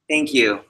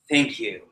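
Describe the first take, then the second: First: The voice falls confidently at the end. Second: The voice rises weakly at the end.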